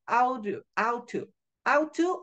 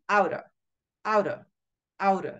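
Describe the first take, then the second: First: Both words are said separately and fully. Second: The words run together in a reduced form.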